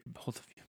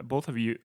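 First: Whispered under the breath, much softer; muttered aside. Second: Said in the usual way. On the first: Real, not acted. Podcaster correcting himself to his co-hosts, whispered aside. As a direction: drop to a toneless whisper as you fix yourself. Self-correction mid-sentence.

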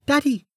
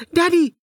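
First: Put-on high little girl's call; small child crying out. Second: Put-on higher, louder child's shout. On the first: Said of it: "a small voice cried out". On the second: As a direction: yell for her father. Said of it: "the child shouted again". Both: A narrator's reading.

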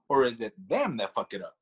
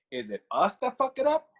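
First: "them" stressed, then pitch falling low; second option, "them" punched, tune falling away. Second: "us" stressed, question rising high at the end; first option, "us" punched, tune left hanging high. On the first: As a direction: lean on "them" and drop to close the question. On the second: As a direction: lean on "us" and lift the question upward. Contrasts us against them, asking. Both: Real, not acted.

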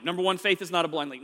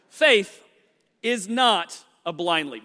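First: Said in the usual way. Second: Coughing, then talking past a mint; mint in mouth. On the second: Real, not acted. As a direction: clear the throat, mint still in mouth. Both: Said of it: "I threw a mint r".

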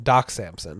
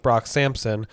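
First: "Doc Samson" with a hard D, no B or R; "Doc Samson" said right after the slip; corrected name Doc Samson. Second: "Brock Sampson" said with a B and an R; "Brock Sampson", the mistaken name; wrong name Brock Sampson. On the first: Shown as a demonstration. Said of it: "Brock, not Brock Sampson". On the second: Real, not acted.

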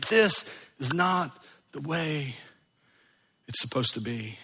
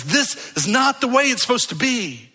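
First: Hushed, grave conviction; quiet inner resolve. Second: Higher, urgent cry of protest; rising pastoral passion; impassioned outcry. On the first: Same words repeated inwardly. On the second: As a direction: let the soul cry out against the wrong. Soul cries out at wrongness. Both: Acted.

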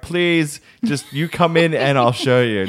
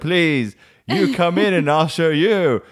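First: Higher-pitched retold plea; imitated embarrassed child bargaining; mock pleading. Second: High, drawn-out retold plea; slow, pitched-up imitation of whining child; mock desperate pleading. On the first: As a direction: beg mum, lightly hammed up. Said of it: "I'm like". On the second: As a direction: beg mum with hammed-up desperation. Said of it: "And I'd be like".

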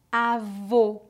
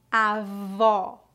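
First: Avô with closed O, /o/ like "oh"; stressed closed ô at the end of avô. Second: Avó with open O, /ɔ/ like "aw"; stressed open ó at the end of avó. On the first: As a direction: say avô with lips rounded and the mouth nearly closed. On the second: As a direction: say avó with the mouth wide open on the last vowel. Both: Shown as a demonstration. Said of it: "Repita depois de mim".

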